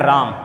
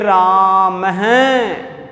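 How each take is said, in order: First: The word ends plainly on the final consonant. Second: The word ends with an added breathy echo sound. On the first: "साधारण भाषा में हिंदी में राम बोलते हैं" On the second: "विसर्ग लगा दें तो फिर इसका उच्चारण हम थोड़ा विशेष तरीके से करेंगे"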